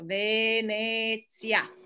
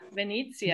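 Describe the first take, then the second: First: The first E sounds like 'eh'. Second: The first E sounds like 'ee'. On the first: The speaker calls it right. "This isn't an I, it's an E. So Venezia" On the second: The speaker calls it wrong. "A lot of people say like Venezia"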